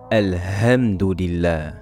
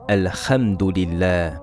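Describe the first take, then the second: First: The h is a light, plain breath. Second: The h is a raspy sound from the back. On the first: "ou la lettre Ha" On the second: "nous la remplaçons par la lettre Kha"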